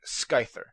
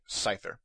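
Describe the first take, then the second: First: The C at the start is sounded. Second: The C at the start is silent. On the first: The speaker calls it wrong. "I've heard people saying Scizor and Scyther" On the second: The speaker calls it right. "the C is silent"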